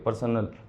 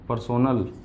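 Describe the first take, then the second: First: The middle vowel is reduced, almost dropped. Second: The middle syllable has a full 'o' vowel. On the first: The speaker calls it right. "इसकी pronunciation भी पर्सनल होती है" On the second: The speaker calls it wrong. "इसको पर्सोनल मत पढ़ना"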